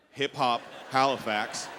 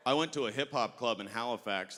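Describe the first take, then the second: First: Hip-hop Halifax said slowly, each word weighted; slow emphatic repeat. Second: Said in the usual way. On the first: Shown as a demonstration. Comic repeating Hip-hop Halifax for the crowd, slow and weighted. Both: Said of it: "Let me repeat that".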